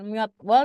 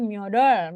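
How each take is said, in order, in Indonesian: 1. Setiap bunyi diucapkan dengan hati-hati dan terpisah. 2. Bunyinya diucapkan santai dan menyatu satu sama lain. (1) "bukan myodwol" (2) "memang logatnya orang Korea"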